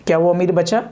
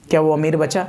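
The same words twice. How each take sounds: The two takes are said the same way.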